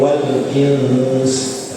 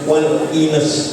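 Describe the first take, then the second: First: The n is held with a long nasal hum. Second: The n is short with no nasal hum. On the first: The speaker calls it right. "harus tetap didengungkan ... ini harus gitu" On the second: The speaker calls it wrong. "nggak boleh"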